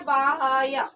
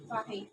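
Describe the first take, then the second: First: The h and y are split by a vowel. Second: The h joins directly onto the y sound. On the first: The speaker calls it wrong. "अगर हम इसे ऐसे लिखते हैं बाह्य, क्या हो जाएगा" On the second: The speaker calls it right. "ये हा या के साथ में मिल जाएगा"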